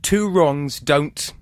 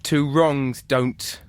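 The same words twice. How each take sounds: First: Slow, drawn-out prompt; slow reading. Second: Very slow, drawn-out prompt; very slow reading. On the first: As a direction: stretch each word out slowly. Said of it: "reads adage prompt". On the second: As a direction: draw it out even more slowly. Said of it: "rereads prompt". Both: Shown as a demonstration.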